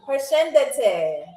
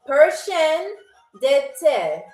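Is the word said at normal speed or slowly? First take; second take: normal; slowly. First: The word is said at normal speed. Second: The word is said slowly.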